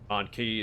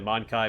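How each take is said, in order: First: The second syllable sounds like 'key'. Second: The second syllable rhymes with 'eye'. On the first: The name plainly says the English word. The speaker calls it wrong. "it's too on the nose" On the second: The name only hints at the English word. The speaker calls it right. "I feel like Mon Kai makes it, you know, just subtle enough"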